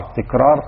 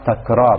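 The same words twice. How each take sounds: First: The first vowel is not an open a. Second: The first vowel is an open a sound. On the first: The speaker calls it wrong. "تكرار خطأ شائع" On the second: The speaker calls it right. "صيغة تفعال بأجمعها مفتوحة العين فيقال تكرار"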